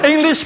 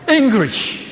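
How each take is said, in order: First: The middle consonant is a clear L sound. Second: The middle consonant is an R sound. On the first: "some nationalities cannot pronounce L" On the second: "some nationalities cannot pronounce L"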